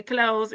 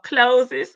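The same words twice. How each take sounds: First: Said in the usual way. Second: "closes" in two syllables, CLOSE-iz; mocked misreading. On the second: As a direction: lean hard on the wrong ending of "closes". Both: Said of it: "It's supposed to be closed".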